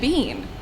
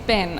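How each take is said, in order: First: The word has a long ee vowel. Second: The word has a short i vowel. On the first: "There's two E's. It should be bean" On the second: "no, Hayden, it's bin"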